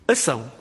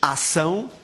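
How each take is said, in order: First: The first A vowel is closed. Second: The first A vowel is open. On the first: "O ILTEC já fecha tudo" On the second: "ensinava as pronúncias ação e acionamento, mas fechava acionado"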